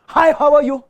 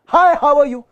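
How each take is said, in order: The two takes are said the same way.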